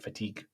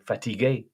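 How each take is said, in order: First: Said in the usual way. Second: "fatigué" ending on a rising "ay"; "fatigué" as three syllables, lifted at the end; French pronunciation. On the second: Shown as a demonstration. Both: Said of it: "or like the French say".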